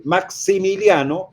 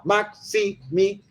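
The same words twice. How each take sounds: First: Said in the usual way. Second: Slow, split "Maximiliano" into its syllables; syllabified name. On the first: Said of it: "yo no digo". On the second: Shown as a demonstration. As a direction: tap out "Maximiliano" one syllable at a time. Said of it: "yo digo la sílaba".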